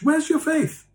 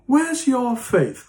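First: Much higher, strained holier-than-thou jab; shrill mock accuser. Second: Slow, higher mock accusation; mocking accuser. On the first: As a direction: squeak it out like a pious scold. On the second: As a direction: drag it out, needling them. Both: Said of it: "we go up to one another and said".

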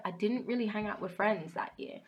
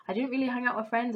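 First: Said in the usual way. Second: "really" pushed, faster and louder; emphatic repeat. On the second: Real, not acted. Telling viewers about her lonely year, repeating it with emphasis. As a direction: hammer the point home by saying it again.

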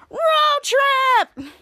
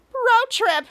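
First: High, loud, excited shout; group cheer. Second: High but shorter, lighter echo; smaller cheer. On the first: Team in unison at the plan, excited shout. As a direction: whoop it like a whole team. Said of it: "in unison said". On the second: Shadow echoing the team, lighter high cheer. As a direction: pipe it up with less force. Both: Retold or imitated.

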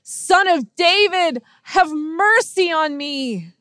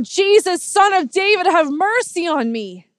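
First: High, slow, drawn-out shout; imitated shout. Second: High, loud cry for mercy; imitated yell. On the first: Blind beggar shouts even more to Jesus, shouting. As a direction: stretch the plea out loud and high. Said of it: "he shouts even more". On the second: Blind beggar calls to Jesus passing by, yelling. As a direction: cry out over a crowd, pleading. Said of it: "he yells out".

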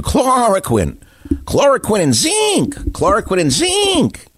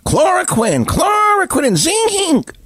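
First: High, slow, sing-song mock of a TV doctor; sneering high-pitched impression of a TV pundit; mocking TV clown. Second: High, slow, yelled parody of the slogan; shrieking cartoonish mockery of a TV pundit; mocking shouted clown. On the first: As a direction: parrot the clown's slogan with scorn. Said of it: "a T V clown who was telling you". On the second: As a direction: scream the clown's catchphrase in ridicule. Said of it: "The television clown".

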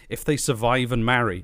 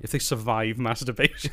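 First: Said in the usual way. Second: Breaking into laughter; reading while cracking up; laughing. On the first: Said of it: "does it really say if they survive?". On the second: Real, not acted.

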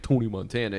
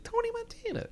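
First: Said in the usual way. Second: Much higher, laughing through the name; full Tony Montana mode. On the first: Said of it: "he's not, like". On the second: Shown as a demonstration. Friend mocks the famous Scarface Tony with a laugh. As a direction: hype the name up like the movie legend. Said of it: "at this point, he's not, like".

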